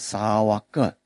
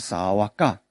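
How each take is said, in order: First: The final syllable ends in a reduced 'uh' vowel. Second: The final syllable ends in a full 'ah' vowel. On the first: This follows the Sri Lankan way of chanting. "如果是后面A 在上面短音呢，他们是二念的，所以我们就念沙瓦格" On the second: This follows the Burmese and Thai way of chanting. "不是沙瓦嘎啊，但是也可以了啊"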